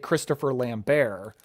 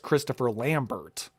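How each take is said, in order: First: The surname is given a French pronunciation. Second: The surname is given a plain English pronunciation. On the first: "I thought that was like the French pronunciation" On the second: "it's just Christopher Lambert"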